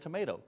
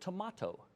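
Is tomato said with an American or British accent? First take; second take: American; British. First: It is said with an American accent. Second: It is said with a British accent.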